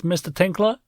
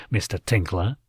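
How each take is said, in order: First: Higher, rising detective question; Orin, higher questioning voice. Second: Lower, dry police question; Beazle, lower, flat voice. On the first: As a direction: lift it up like a curious officer. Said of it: "Officer Orin asked". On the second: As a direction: drop it low and level. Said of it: "Beazle took a sip". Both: A narrator's reading.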